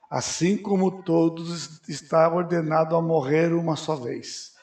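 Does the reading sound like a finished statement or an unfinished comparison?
finished statement. It is read as a complete, final statement. Everyone must die once is stated as a fact. The speaker calls it wrong. "Errado. Não é assim que está escrito lá"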